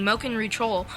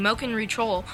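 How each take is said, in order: First: The words are said with their sounds swapped. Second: The words are said with their sounds swapped.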